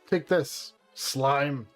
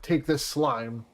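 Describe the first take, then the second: First: There is a pause before slime. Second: There is no pause before slime. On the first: The slime is being spoken to. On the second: The slime is being thrown at someone.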